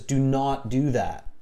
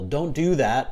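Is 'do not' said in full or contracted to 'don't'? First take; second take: full; contracted. First: 'Do not' is said in full as two words. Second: 'Do not' is contracted to 'don't'. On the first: The command sounds stronger. The speaker calls it right. "when we enunciate each word clearly, it carries more strength, more emphasis" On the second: The command sounds weaker. The speaker calls it wrong. "it doesn't sound as strong"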